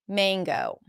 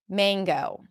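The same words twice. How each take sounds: The two takes are said the same way.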